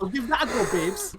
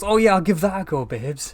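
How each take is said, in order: First: High, breezy mock voice; carefree Doctor impression. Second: High, breezy, louder; carefree Doctor impression. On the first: Friend echoing the Doctor's line, high gleeful mock voice. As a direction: echo it back, gleeful and high. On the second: Voicing the Doctor jumping onto a rope, high breezy mock voice. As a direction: toss it off like a reckless daredevil. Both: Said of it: "who sees a ladder ... and goes".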